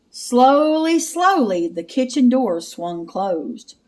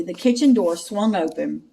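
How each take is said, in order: First: Slow creepy suspense read; eerie drawn-out telling. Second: Said in the usual way. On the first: Acted. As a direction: draw it out to build dread.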